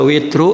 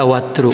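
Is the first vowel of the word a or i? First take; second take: i; a. First: The first vowel is i. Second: The first vowel is a. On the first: One Arabic dialect reads it this way. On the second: Another Arabic dialect reads it this way. "ada yang membaca watru"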